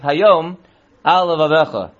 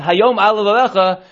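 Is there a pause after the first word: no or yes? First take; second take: yes; no. First: There is a short pause after the first word. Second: The words run together without a pause. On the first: The command is given today; it should be on your heart. The speaker calls it right. "We want it to be a little pause there" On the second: Today it should be on your heart. The speaker calls it wrong. "If you say it too much together"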